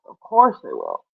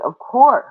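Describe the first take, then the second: First: Much lower, softer "of course". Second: Said in the usual way. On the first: Pretend. Teasing viewers about fashion, sudden deep voice. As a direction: drop the voice deep for a mock sneer.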